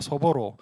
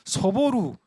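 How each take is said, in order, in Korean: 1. 마지막 음절은 'o' 모음으로 끝나요. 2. 마지막 음절은 'u' 모음으로 끝나요. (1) "일본식 발음은" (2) "이건 이제 한국식 발음이고"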